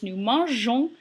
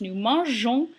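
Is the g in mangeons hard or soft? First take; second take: soft; soft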